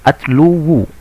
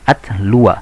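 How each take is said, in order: First: The word ends with a 'u' vowel. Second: The word ends with an 'a' vowel. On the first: The speaker calls it wrong. "Adapun ketika dhammah berat" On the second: The speaker calls it right. "Karena pengucapannya ringan"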